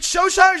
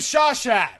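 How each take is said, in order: First: The word ends on a vowel, no final t. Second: The word ends with a clear t sound. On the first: The speaker calls it right. "The script says pronounced Shosha" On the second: The speaker calls it wrong. "I was pronouncing it as Shawshat this whole f***ing time"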